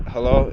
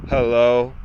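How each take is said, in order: First: Said in the usual way. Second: Imitating a curt phone hello, drawn out low; mean attitude. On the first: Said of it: "I'd be like". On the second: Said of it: "She would always sound like she had an attitude".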